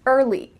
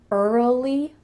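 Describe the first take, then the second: First: The sounds run together with no extra vowel. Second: An extra uh sound is added in the middle. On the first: The speaker calls it right. "put it together" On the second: The speaker calls it wrong. "I often hear English learners say early, early, but that uh in the middle isn't natural"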